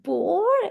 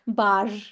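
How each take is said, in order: First: The vowel is a rounded 'or' sound. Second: The vowel is an open 'ah' sound. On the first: The speaker calls it wrong. "Not bore. It's not like English" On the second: The speaker calls it right. "It's bar"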